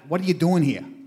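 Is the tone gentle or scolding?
scolding. The voice sounds harsh and scolding. The speaker is telling him he should not be there. "did you hear him, you know, kind of like, guy, what are you doing here? Huh? ... You shouldn't be here"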